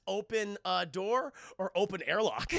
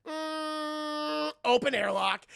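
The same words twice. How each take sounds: First: Said in the usual way. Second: High held hum, then loud choice; mock trance decision; entranced. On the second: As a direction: hum dreamily, then announce it. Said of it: "snaps out of his trance".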